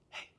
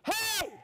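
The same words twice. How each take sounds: First: The word is said quietly, like a whisper. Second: The word is said loudly, like a shout. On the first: The speaker is close and sharing something. The speaker calls it right. "When you come up to somebody and you're sharing something, you say" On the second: The speaker is far away or calling out. The speaker calls it wrong. "You don't go up to somebody to their ear and go"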